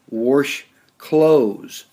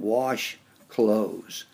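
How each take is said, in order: First: Wash is said with a local Nebraska pronunciation. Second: Wash is said with a standard pronunciation. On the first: This is how people said it locally. The speaker calls it wrong. "you'd wash clothes" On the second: This is the standard way to say it. The speaker calls it right. "rather than wash clothes"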